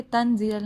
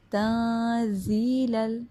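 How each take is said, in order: First: Quick "تنزیل ال" with the noon fully sounded; unhidden noon. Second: Slow chanted "تنزیل ال" with the n hidden in a nasal hum; hidden noon. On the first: Teacher showing the mistake, "تنزیل ال" with plain n. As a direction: say "تنزیل ال" with a clear, short n. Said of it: "تنزیل ال نہیں". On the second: Teacher modelling "تنزیل ال", slow, noon hidden. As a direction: open the mouth, hide and hold the n in "تنزیل ال". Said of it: "ہائیڈ کرنی ہے نون کی آواز کو". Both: Shown as a demonstration.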